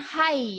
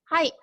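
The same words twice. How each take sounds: First: The word ends openly without a sharp stop. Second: The word ends with a sharp stop. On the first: The speaker calls it wrong. "Bukan hai ya" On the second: The speaker calls it right. "ada jeda di belakang, yaitu jeda huruf K"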